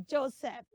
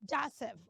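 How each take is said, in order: First: Joseph as "JOE-seff"; hissed S and full E in Joseph; wrong pronunciation. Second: Joseph as "JAH-seff"; wrong pronunciation. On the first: Teacher warns children, Joseph as "JOE-seff". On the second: Teacher warns of another mistake, Joseph as "JAH-seff". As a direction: open AH at the start of Joseph, S sound. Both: Shown as a demonstration. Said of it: "Don't say Joseph".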